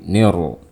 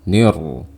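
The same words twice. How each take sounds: The two takes are said the same way.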